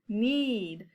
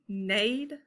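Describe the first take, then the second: First: The vowel is a long e, as in seed. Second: The vowel is a long a, as in made. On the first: The speaker calls it right. "Let's try the long E sound" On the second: The speaker calls it wrong. "I've never heard of that"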